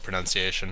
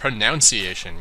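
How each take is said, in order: First: The second syllable sounds like 'nun'. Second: The second syllable sounds like 'noun'.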